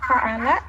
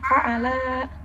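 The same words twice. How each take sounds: First: All the vowels are short. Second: The final vowel is held long. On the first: He has done it. The speaker calls it right. "Ini kan pendek semua" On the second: The two of them have done it. The speaker calls it wrong. "dibacanya fa'ala"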